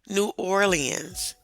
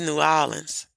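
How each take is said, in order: First: The name has its textbook, outsider pronunciation. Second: The name has its local Louisiana pronunciation. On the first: The speaker calls it wrong. "I was taught in school to say New Orleans. ... You're saying it wrong" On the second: The speaker calls it right. "It's New Orleans"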